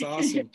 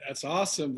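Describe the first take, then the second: First: Higher, more excited repeat. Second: Said in the usual way. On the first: Real, not acted. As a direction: lift it up with enthusiasm.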